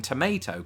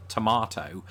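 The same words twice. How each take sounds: First: TOMATO as "to-MAY-to"; American MAY in TOMATO. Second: TOMATO as "to-MAH-to"; British tomato. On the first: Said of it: "reverted to saying tomato". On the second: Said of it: "hear me say it that way". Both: Shown as a demonstration.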